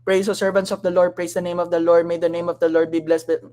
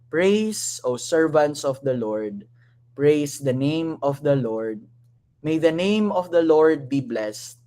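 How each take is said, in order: First: It is read fast. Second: It is read slowly.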